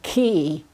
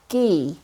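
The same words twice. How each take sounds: First: The first consonant is hard and strong. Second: The first consonant is soft and light. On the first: The speaker calls it wrong. "not the hard like key" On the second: The speaker calls it right. "it's key"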